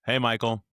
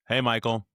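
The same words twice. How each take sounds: First: The greeting sounds low, flat and gloomy. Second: The greeting sounds low, flat and gloomy.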